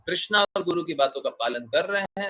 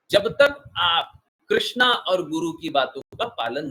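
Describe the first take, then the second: First: Said in the usual way. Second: Krishna stressed, slow and louder, rising at the end; slow emphatic stress. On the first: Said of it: "guru repeats the condition plainly". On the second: Shown as a demonstration. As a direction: lean hard on Krishna, drawn out and loud. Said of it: "guru stresses the condition to followers".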